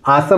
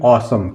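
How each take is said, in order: First: The first vowel is an open unrounded 'aa'. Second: The first vowel is a rounded 'aw'. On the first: The speaker calls it wrong. "आसम नहीं पढ़ेंगे" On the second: The speaker calls it right. "इसको पढ़ेंगे ऑसम"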